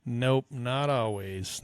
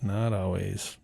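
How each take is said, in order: First: Breathy slow whisper; slow hushed nope. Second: Said in the usual way. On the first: Real, not acted. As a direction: whisper it, drawn out.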